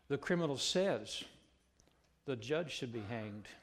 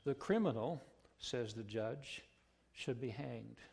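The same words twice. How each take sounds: First: It runs on without pauses. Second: Short pauses set off 'says the judge'. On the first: The judge is the one who should be hanged. "The only difference between those two sentences is the placement of the comma" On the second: The criminal is the one who should be hanged. "The only difference between those two sentences is the placement of the comma"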